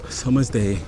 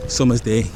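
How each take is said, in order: Both takes have the same delivery.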